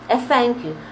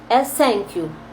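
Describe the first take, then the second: First: The first sound is an f sound. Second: The first sound is an s sound. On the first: "é um F" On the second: "é um S"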